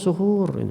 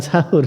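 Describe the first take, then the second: First: The first vowel sounds like 'u'. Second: The first vowel sounds like 'a'. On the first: It names the act of eating the pre-dawn meal. The speaker calls it right. "Jadi yang betul sebenarnya suhur" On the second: It names the food eaten before dawn. The speaker calls it wrong. "Bukan sahur sebenarnya"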